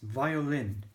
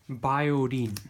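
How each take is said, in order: First: It begins with a V and has an L. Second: It begins with a B and has an R. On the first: "Because it's violin. There's an L in there" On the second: "the V is replaced with a B, and the L is replaced with an R"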